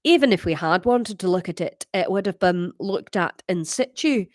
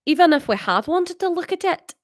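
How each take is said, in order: First: Put-on lower-pitched Glasgow accent; Scottish character, on the deeper side. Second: High-pitched Scottish read; higher Scottish character voice; Scottish accent. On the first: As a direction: read it in a deep Scottish voice. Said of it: "the deeper one". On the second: Acted. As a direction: read it in an Edinburgh-style high voice. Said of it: "is that Scottish?".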